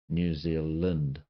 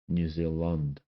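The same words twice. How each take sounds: First: The vowel in 'land' sounds like 'i'. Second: The vowel in 'land' sounds like 'u'. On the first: "The land comes out as Lind" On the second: "for some New Zealanders, it's Lund"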